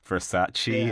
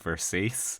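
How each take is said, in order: First: The name is said with its usual pronunciation. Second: The name is said with an altered pronunciation.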